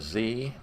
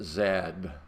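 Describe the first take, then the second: First: The letter is named the American way. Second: The letter is named the European way. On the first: The speaker calls it wrong. "We don't refer to it as a Z" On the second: The speaker calls it right. "we refer to it as a Z. Makes the Europeans a little happier"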